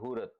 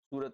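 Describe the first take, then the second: First: The word begins with an h sound. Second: The word begins with an s sound. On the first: This is how the Surat dialect says it. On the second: This is the standard way of saying it.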